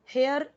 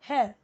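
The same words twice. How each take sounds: First: The final r sound is pronounced. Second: The final r sound is dropped. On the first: The speaker calls it wrong. "हेयर नहीं बोलना है" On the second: The speaker calls it right. "र last तक नहीं बोलना है"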